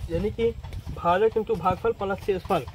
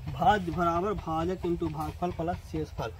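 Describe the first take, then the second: First: Said in the usual way. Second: Slow, word-by-word reading of भाज्य बराबर भाजक into भागफल plus शेषफल; slow formula read. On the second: Shown as a demonstration. Teacher to students, reading the formula slowly off the board. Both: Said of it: "देखिए यहाँ सूत्र है ना".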